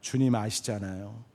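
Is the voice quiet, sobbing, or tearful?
quiet. It is said in a small, fading voice. He is too ashamed to speak up. "기어 들어가는 목소리로 대답했을지 모릅니다"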